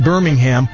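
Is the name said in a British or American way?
American. The name is said in a plain American way. The speaker calls it wrong. "Not Birmingham"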